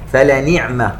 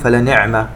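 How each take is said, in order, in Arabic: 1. الكسرة بعد النون مُشبَعة. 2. الكسرة بعد النون مختصرة. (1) "ننتبه إلى إشباع الكسرة" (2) "ولا نقول فلنعم"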